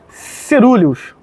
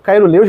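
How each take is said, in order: First: The word begins with a 'se' sound. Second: The word begins with a 'kai' sound. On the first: It is the proper way of saying the scientific name. The speaker calls it right. "é Cerúleos, né, a pronúncia é certa" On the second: It is the popular way of saying the name. The speaker calls it wrong. "eu falo Cairoleus, galera, mas o certo mesmo não é Cairoleus"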